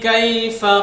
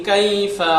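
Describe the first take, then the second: Both takes have the same delivery.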